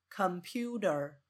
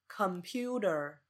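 Both takes have the same delivery.

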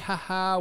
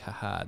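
First: The laugh sounds warm and joyful. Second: The laugh sounds mocking and condescending. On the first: Fondly remembering something funny the person did. The speaker calls it right. "In a joyous Held way. Joyous way, in a sense of like we're reminiscing about something they did" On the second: Making fun of the fact that the person died. The speaker calls it wrong. "Never in a condescending way, like"

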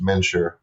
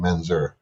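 First: The middle consonant sounds like SH. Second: The middle consonant sounds like Z. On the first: This is the original Hungarian pronunciation. "more of an SH" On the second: This is the current pronunciation. "instead of a Z"

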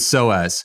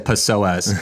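First: The word begins with no P sound. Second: The word begins with an audible P sound. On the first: The speaker calls it right. "The P is silent" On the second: The speaker calls it wrong. "Don't say psoas"

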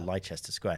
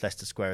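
First: The name is said the American way. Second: The name is said the British way. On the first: The speaker is not from the UK. The speaker calls it wrong. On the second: The speaker is from the UK. The speaker calls it right.

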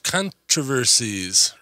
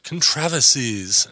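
First: The word is said the speaker's usual local way. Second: The word is said the way it's said overseas.

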